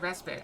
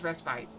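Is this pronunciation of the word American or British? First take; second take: American; British. First: The word is said with an American pronunciation. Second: The word is said with a British pronunciation. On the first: "I've always pronounced it respite... so I pronounce it American" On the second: "but British is respite"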